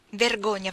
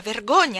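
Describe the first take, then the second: First: First scolding "Vergogna" slightly louder; reproachful. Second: "vergogna" much louder with a falling end; louder reproach. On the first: ("Vergogna" detto con rimprovero) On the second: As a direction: hit the repeated "vergogna" harder. ("vergogna" ripetuto più forte, in calando) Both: Acted. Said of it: "esclamò la cameriera".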